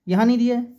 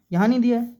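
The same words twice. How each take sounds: The two takes are said the same way.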